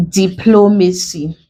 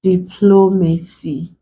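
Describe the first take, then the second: First: Said in the usual way. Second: DIPLOMACY split slowly into di-plo-ma-cy; broken into syllables. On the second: Shown as a demonstration. Teacher breaking a word for students, DIPLOMACY in separate syllables. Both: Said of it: "We break it into syllables".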